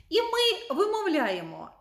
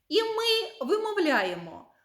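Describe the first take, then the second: No difference in how they are said.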